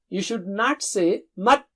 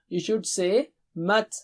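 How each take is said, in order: First: The final t is cut off with no breath. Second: The final t is released with audible breath. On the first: The speaker calls it wrong. "you should not say" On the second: The speaker calls it right. "So let the breath go on"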